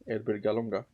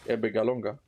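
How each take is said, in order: The two takes are said the same way.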